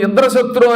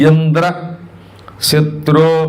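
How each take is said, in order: First: It is said joined, with no pause inside. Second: There is a pause between Indra and shatru. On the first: A demon who destroys Indra is meant. The speaker calls it right. "అది ఒకటే సమాసంగా కలిపి చదివితే" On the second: Indra himself is addressed as the enemy. The speaker calls it wrong. "కేవలం gap ఇచ్చాడు అంతే"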